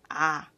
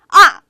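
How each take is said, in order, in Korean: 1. 이 음절은 길고 부드럽게 발음해요. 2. 이 음절은 짧고 강하게 발음해요. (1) "그거는 잘못된 소리" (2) "이렇게 짧고 강하게 소리를 내야만 합니다"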